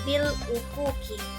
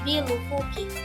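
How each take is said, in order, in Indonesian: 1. Hamzah yang jelas terdengar sebelum 'ufuki'. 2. Hamzah dihilangkan, huruf 'l' langsung tersambung. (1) "membacanya dengan hamzah yang jelas" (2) "sehingga hamzah tidak terdengar. Bacaan menjadi lebih ringan"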